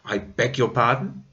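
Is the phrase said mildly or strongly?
strongly. The phrase is said more strongly and sternly. "Maybe stronger. ... as like a warning or even a, a scolding"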